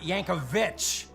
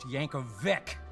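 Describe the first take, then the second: First: The name ends with a ch sound. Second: The name ends with a hard k sound. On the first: The speaker calls it wrong. "not Yankovich" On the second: The speaker calls it right. "My last name is pronounced Yankovic"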